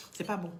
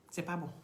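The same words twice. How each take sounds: The two takes are said the same way.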